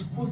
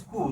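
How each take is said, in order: First: The word begins directly with the consonant cluster. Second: An extra vowel sound comes before the cluster.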